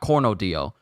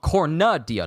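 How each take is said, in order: First: The name is pronounced as Cornodio. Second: The name is pronounced as Cornudia. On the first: The speaker calls it wrong. "I was saying it incorrectly this entire time" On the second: The speaker calls it right. "not Cornodio"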